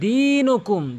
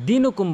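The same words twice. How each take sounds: First: The first vowel is drawn out long. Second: The first vowel is short and clipped. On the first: The speaker calls it right. "বলতে হবে দিনুকুম, দিনুকুম টেনে বলবেন।" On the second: The speaker calls it wrong. "অধিকাংশ লোক লাকুম দিনুকুম বলে"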